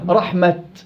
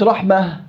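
First: The word ends with a clear t sound. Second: The word ends with a soft h sound. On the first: The speaker calls it right. "تاء مبسوطة ألف باتة رحمة" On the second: The speaker calls it wrong. "مش رحمة"

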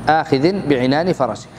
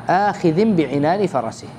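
The two takes are said the same way.

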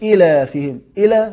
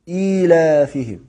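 First: The word breaks apart, sounding like two separate words. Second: The word flows as one, with a long vowel. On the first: The speaker calls it wrong. "مش" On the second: The speaker calls it right. "لا"

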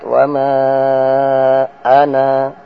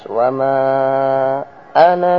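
First: The final vowel of ana is held long. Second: The final vowel of ana is short. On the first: The reciter stops after this word. "kalau dibaca berhenti dibaca dua harokat" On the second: The reciter continues into the next words. "Kalau terus"

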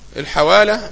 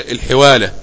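First: The first syllable has the vowel a. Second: The first syllable has the vowel i. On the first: This is the standard form of the term. The speaker calls it right. "هي بالفتح" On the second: This is the everyday colloquial form. The speaker calls it wrong. "نحن نسمى في اللغة العامية الحوالة بكسر الحاء"

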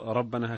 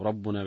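First: The word is said as rabbana, with an a vowel. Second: The word is said as rabbuna, with a u vowel. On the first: The word is read as a vocative address. "هكذا بالنصب" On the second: The word is read as the subject of the sentence. "باعتبار الفاعل"

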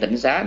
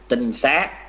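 First: The first syllable has a low, glottalized heavy tone. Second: The first syllable has a level, unbroken tone. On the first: It names a monastery term of one local Buddhist sect. The speaker calls it wrong. "tịnh nó chữ tịnh là có dấu nặng nha" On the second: It names a place where monks gather. The speaker calls it right. "Tinh này không có dấu nặng nha"

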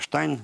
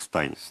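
First: The name begins with an 'sht' sound. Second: The name begins with an 'st' sound. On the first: This is the German pronunciation. "немецкая" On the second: This is the English pronunciation. "переходит в английский и произносится как Стайн"

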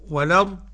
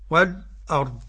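First: The glottal stop is dropped and its vowel moves back. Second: A brief light pause comes before the glottal stop. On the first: "النقل" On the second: "السكت"

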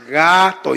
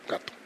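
First: The word is said even more slowly. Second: The word is said at normal speed.

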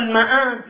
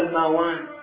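First: The middle consonant is a glottal stop. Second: The middle consonant is a w sound.

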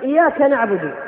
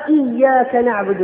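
First: The y sound is short and single. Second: The y sound is doubled and held. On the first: We worship the disc of the sun. The speaker calls it wrong. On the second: We worship You alone. The speaker calls it right.

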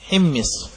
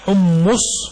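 First: Both vowels in the word are i. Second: Both vowels are u, with a doubled m. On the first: The speaker calls it right. "بكسر الحاء وكسر الميم" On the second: The speaker calls it wrong. "ضم الحاء وتجديد الميم مع ضمها حمص، قال فليست لغة"

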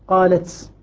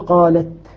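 First: The final t is hissy, like an s. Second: The final t is crisp with a light breath. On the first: The speaker calls it wrong. "فلا نريد من التاء أن تصبح سينا" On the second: The speaker calls it right. "همس خفيف"

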